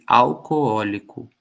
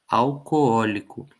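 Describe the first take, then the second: No difference in how they are said.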